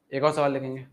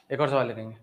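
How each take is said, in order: Both takes have the same delivery.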